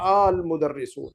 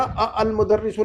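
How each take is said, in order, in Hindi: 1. पहले 'a' और 'al' मिलकर एक 'aal' बन जाते हैं। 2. पहले 'a' और 'al' अलग-अलग बोले जाते हैं। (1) "बल्कि" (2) "नहीं"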